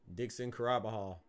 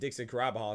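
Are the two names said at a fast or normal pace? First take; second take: normal; fast. First: The names are said at a normal pace. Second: The names are said quickly, run together.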